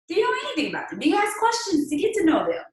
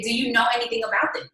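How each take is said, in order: First: Much higher, pointed question; pointed high-pitched challenge; emphatic high question. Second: Said in the usual way. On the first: Acted. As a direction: push it up and press them.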